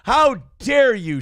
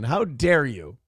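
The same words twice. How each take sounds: First: Slow, loud, higher hammed-up indignation; theatrical pretend offence; mock outrage. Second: Said in the usual way. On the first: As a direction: play scandalised and drag it out. Mock outrage at a fan's comment.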